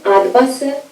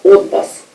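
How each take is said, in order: First: The unstressed first vowel sounds like a. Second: The unstressed first vowel sounds like o. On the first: The speaker calls it wrong. "should be read not as a" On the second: The speaker calls it right. "but as o"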